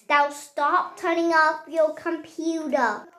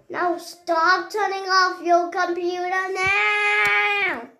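First: Said in the usual way. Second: Mock angry wail. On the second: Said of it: "I'm so angry".

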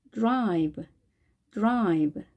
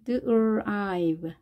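First: 드라이브 as one English syllable, drive; blended "drive". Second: 드라이브 sounded out slowly as d, r, ive; slow breakdown. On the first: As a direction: join the sounds of 드라이브 at natural speed. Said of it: "단어를 떠올려 보겠습니다". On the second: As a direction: draw out each sound of 드라이브. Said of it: "발음 기호를 보고". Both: Shown as a demonstration.

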